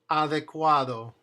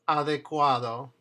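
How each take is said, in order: No difference in how they are said.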